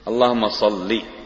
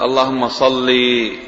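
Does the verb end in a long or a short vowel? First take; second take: short; long. First: The verb ends in a short final vowel. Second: The verb ends in a long final vowel. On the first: It is the proper imperative asking God to bless. The speaker calls it right. "يعني الحذف حرف العلة" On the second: It addresses a woman with a command. The speaker calls it wrong. "هذا خطأ"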